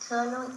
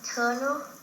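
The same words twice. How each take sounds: First: No r sound follows the first vowel. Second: An r sound follows the first vowel. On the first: "which is kernel in British English" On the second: "American speakers say"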